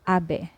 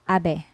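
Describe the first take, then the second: First: The middle consonant is a soft B sound. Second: The middle consonant is a soft B sound.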